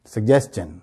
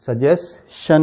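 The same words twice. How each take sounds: First: "سجیشن" joined as sug-jes-chun; G in the middle of "سجیشن", CH at the end; correct pronunciation. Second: "سجیشن" slowly as su-jes... shun; no G in "سجیشن", SH ending; wrong pronunciation. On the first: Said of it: "صحیح اس کا pronunciation کیا ہے؟". ("سجیشن" کو روانی سے "سگجیسچن") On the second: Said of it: "یہ سجیشن نہیں ہے". ("سجیشن" کو غلط "سجیس شن") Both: Shown as a demonstration.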